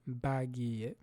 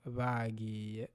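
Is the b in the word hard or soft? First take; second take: hard; soft. First: The b is a full, hard b sound. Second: The b is a softer, lighter sound. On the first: The speaker calls it wrong. "within a word you don't pronounce it as bagiye" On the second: The speaker calls it right. "You say bagiye gukora"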